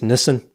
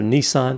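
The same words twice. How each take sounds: First: It is said with a British pronunciation. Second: It is said with an American pronunciation. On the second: "instead of"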